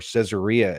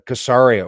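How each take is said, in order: First: The name is said with an English pronunciation. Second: The name is said with a local, non-English pronunciation.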